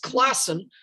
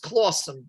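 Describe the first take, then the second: First: The first syllable sounds like 'class'. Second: The first syllable sounds like 'claw'. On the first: The speaker calls it wrong. "some people might mispronounce as Classen" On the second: The speaker calls it right. "Forgotten New York agrees with me that this was Clawson"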